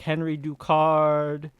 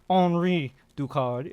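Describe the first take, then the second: First: The name is pronounced the English way. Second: The name is pronounced the French way.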